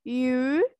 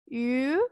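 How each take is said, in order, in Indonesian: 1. Bunyi ini diawali luncuran y sebelum u. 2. Bunyi ini diawali luncuran y sebelum u.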